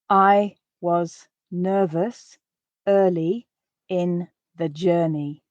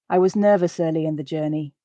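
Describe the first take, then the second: First: The sentence is spoken slowly and carefully. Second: The sentence is spoken at a natural speed. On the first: "quite slowly" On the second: "at a more natural pace"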